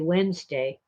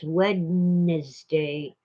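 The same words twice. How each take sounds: First: The d sound in the middle is dropped. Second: The d sound in the middle is pronounced.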